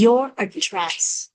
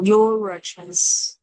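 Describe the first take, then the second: First: Said in the usual way. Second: "your address" run together through the R; slow demo of linked "your address"; connected speech. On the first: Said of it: "Đáng lý ra nó chỉ là". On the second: Shown as a demonstration. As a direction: link "your" into "address" as one word, slowly. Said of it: "Nhưng mà khi đọc nối".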